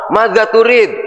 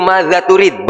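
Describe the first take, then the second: First: Madza turid said high, with Arabic flair; mock Arabic speaker. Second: Said in the usual way.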